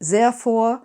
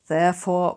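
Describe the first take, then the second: First: The word begins with a z sound. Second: The word begins with a th sound. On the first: "Replace all the T H's, the th, with a Z" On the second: "therefore with therefore"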